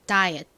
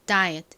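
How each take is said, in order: First: The final t is very soft and barely heard. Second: The same.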